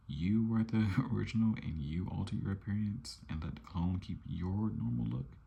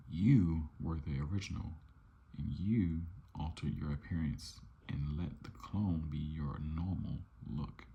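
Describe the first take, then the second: First: Higher voice, "original" punched, "normal look" rising into a question; incredulous question. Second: "YOU" punched, "normal look" falling at the end; falling statement. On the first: Twin challenging his clone over who is original, incredulous rising question. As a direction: throw it back as a question, climbing to "look". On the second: Twin arguing with his clone over the original, falling statement. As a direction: read it as an accusing statement, punch "YOU", let "look" drop. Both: Acted.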